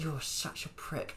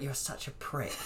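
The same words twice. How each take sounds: First: Slow and quiet through clenched teeth; through gritted teeth. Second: Hissed through clenched teeth, quiet; through gritted teeth. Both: Retold or imitated. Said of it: "when you're saying it through gritted teeth".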